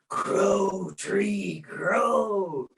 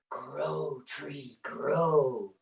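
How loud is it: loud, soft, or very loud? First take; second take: loud; soft. First: It is said a little more loudly. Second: It is said at a soft, plain volume.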